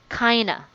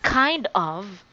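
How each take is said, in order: First: The words blend into one reduced word. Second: Both words are said fully and separately. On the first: "you want to sound like a native speaker, so you can say kinda" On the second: "Instead of saying kind of"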